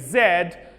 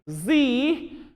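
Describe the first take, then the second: First: The letter is said the British way, zed. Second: The letter is said the American way, zee.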